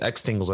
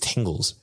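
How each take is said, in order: First: The X at the start is pronounced. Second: The X at the start is silent. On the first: The speaker calls it wrong. "I don't think it's Xtingles" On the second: The speaker calls it right. "I think the X is silent"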